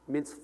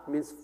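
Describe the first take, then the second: No difference in how they are said.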